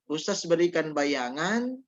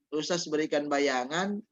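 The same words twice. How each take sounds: The two takes are said the same way.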